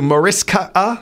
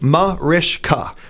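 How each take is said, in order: First: The middle consonant is a plain s sound. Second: The middle consonant is an sh sound. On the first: The speaker calls it wrong. "she's got everything from Mariska to Maritza to Maricia to Mariska" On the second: The speaker calls it right. "the correct pronunciation is Mariska"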